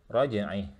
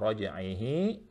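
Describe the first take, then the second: First: The word ends abruptly without a final vowel. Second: The word ends with a vowel held two counts. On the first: The reader pauses at this word. "Sama rajaihi laqadir jadi rajai" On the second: The reader continues into the next word. "kalau wasal innahu ala raj'ihi, dua harokat"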